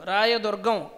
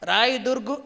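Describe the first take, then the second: First: The name ends in full, as 'durgam'. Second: The name ends clipped, as 'durgu'. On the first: The speaker calls it right. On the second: The speaker calls it wrong.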